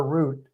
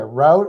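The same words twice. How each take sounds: First: ROUTE pronounced "root"; rhymes with boot. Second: ROUTE pronounced "rowt"; rhymes with out. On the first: Host asking which way is right, rhyming with boot. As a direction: offer "route" with the OO vowel. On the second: Host asking which way is right, rhyming with out. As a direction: offer "Route" with the OW vowel. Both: Shown as a demonstration. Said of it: "How do you say it?".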